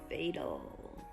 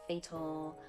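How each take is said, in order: First: The middle consonant is a light D-like tap. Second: The middle consonant is a crisp hard T. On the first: "We also use it after the syllabic ul sound" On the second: "Using that true hard T"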